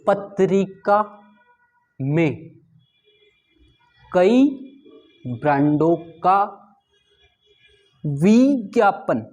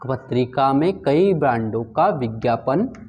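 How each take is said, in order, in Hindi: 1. विज्ञापन का पहला स्वर लंबा खींचा जाता है। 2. विज्ञापन का पहला स्वर छोटा रखा जाता है। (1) "ये जो वी है ये भी अत्यधिक समय ले रहा है" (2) "अधूरे व्यंजन के आगे भी लघु मात्रा आती है"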